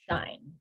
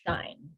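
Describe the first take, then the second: First: The word sounds like 'shine'. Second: The same.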